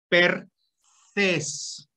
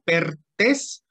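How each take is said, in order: First: Drawn-out Pertes, tongue between the teeth for the t; TH pronunciation. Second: Pertes with a hard T, split in two syllables; pronounced as spelt. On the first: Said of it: "nada más que es". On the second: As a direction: say Pertes with a plain Spanish t. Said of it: "como suena". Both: Shown as a demonstration.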